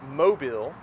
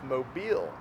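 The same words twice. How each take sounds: First: The stress is on the first syllable. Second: The stress is on the second syllable. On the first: The speaker calls it wrong. "it's not Mobile" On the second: The speaker calls it right. "the emphasis is on the second half"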